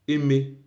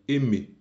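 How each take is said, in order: Both takes have the same delivery.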